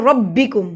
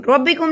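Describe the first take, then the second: First: "ربکم" as "rob-bikum", b doubled; joined ربکم. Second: "ربکم" as "robikum", b not doubled; wrong ربکم. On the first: Teacher correcting learners, "ربکم" with a doubled b. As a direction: press and hold the b in "ربکم". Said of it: "را کو با سے ملائیں گے". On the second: Teacher showing the mistake, "ربکم" with a single b. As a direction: slide through a single b in "ربکم". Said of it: "ربکم نہیں پڑھیں گے". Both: Shown as a demonstration.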